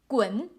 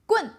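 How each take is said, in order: First: The syllable is said with the second tone. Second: The syllable is said with the last tone. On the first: It means get out. "if this one with the second tone" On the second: It means a stick. "If this one means the last tone"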